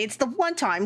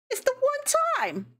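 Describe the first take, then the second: First: Said in the usual way. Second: Much higher, slower, whiny mock voice; It's the one time in a tiny, high whine; squeaky mock whine. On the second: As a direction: squeak it out like a cartoon kid. Mock squeaky repeat of own excuse.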